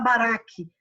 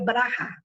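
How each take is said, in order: First: The last consonant is a hard k sound. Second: The last consonant is a throaty h sound. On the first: This is how English speakers read it. The speaker calls it wrong. "o inglês, quando coloca esse som do Rá no final, ele coloca um K com um H, que aí ele fala baraque" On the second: This is how it is said in Israel. The speaker calls it right. "mas a pronúncia correta em Israel é Rá"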